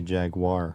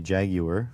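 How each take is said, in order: First: The word has a North American pronunciation. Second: The word has a British pronunciation. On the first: "we say jaguar" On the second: "They say jaguar"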